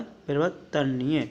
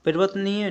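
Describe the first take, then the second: First: परिवर्तनीय spaced out as "pari-var-ta-niya"; corrected form. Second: परिवर्तनीय run together as "parivatniya"; raised, run-together परिवर्तनीय; incorrect form. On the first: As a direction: sound out every syllable of परिवर्तनीय. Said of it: "ते पे रे आएगा". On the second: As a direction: squeeze the middle of परिवर्तनीय into "vatni". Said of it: "परिवर्तनीय नहीं होता". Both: Shown as a demonstration.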